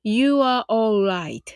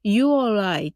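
First: It is said slowly. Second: It is said fast.

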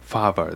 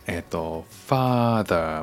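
First: The middle consonant is a v sound. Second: The middle consonant is a th sound.

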